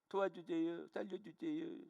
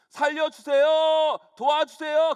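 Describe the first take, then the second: First: It is said in a very small voice. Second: It is shouted out loud.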